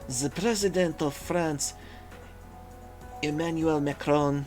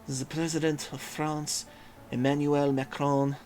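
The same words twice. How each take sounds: First: It is said without a French accent. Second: It is said with a put-on French accent. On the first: "No, wait, that's not French" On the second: "How would I put a French accent on this?"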